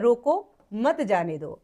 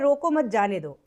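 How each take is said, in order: First: There is a pause after the first word. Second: It is said with no pause anywhere. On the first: Stop him and do not let him go. "अल्प विराम लगा है रोको पे।" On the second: The request is unclear. "इसमें कोई विराम चिन्ह नहीं लगा है।"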